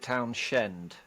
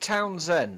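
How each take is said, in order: First: The middle sound is sh. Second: The middle sound is a plain s. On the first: "Is it a Shend?" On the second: "Is it a silent H?"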